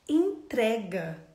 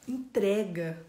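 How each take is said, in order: Both takes have the same delivery.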